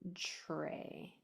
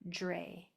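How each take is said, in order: First: It begins with a sound like CH then R. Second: It begins with a sound like J then R. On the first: "Or it might sound like a C H R" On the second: "if you say it sloppily, it'll sound like a J R"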